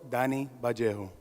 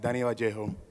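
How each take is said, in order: First: The name is said more slowly. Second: The name is said at a normal pace.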